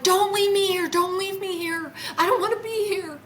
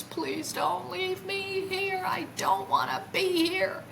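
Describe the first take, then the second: First: Very high, insistent retold plea; urgent begging. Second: Imitated tearful crying. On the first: Repeating her plea to the craft seconds later, begging urgently. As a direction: beg urgently in a high, raised voice. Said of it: "I said it again". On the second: Retelling how she begged the craft, tearfully pleading. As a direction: draw the plea out high, as if crying. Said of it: "now I'm literally crying with tears".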